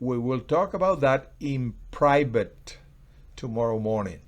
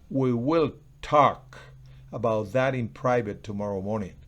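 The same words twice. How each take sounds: First: The word private carries the strongest stress. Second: The word will carries the strongest stress. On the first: It will be discussed privately, not in public. "Estoy resaltando que es en privado" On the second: The talk will really happen.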